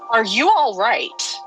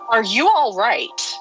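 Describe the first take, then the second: First: It is asked in a stern, firm tone. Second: The same.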